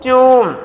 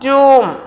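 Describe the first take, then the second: The two takes are said the same way.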